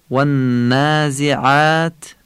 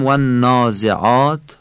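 First: Slow, higher والنازعات with thin "ææ" vowels; "والنازعات" with held n and long fronted alefs; Arabic pronunciation. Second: "والنازعات" as "wannaazeaat", dark Persian vowels; Persian pronunciation. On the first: («والنازعات» فصیح و عربی، کشیده) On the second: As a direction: say والنازعات with back, rounded "aa". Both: Shown as a demonstration.

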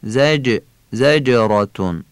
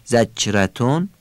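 First: زجراتون with a crisp, bounced voiced ج; sharp bouncing jim. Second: زجرتون with the ج blurred into a "ch" sound; wrong soft jim. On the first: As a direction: sound the ج of زجراتون as a sharp "j" with an echo. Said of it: "باید تیز و ظریف هم تلفظ بشه". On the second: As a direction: mispronounce the ج of زجرتون as ch. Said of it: "با چه و ژ اشتباه نشه". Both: Shown as a demonstration.

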